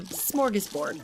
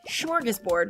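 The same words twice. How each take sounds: First: The word begins with a plain 'sm' sound. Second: The word begins with a 'shm' sound. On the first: The speaker calls it right. "it's just S M" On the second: The speaker calls it wrong. "I have been pronouncing it wrong ... with like an S C H"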